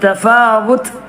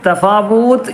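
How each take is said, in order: First: The vowel after the w is short. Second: The vowel after the w is long. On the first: The speaker calls it right. "ഫ മാത്രം നീട്ടിയാൽ മതി" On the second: The speaker calls it wrong. "തഫാവൂത്ത് എന്ന് പറയരുത്"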